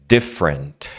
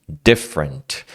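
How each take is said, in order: The two takes are said the same way.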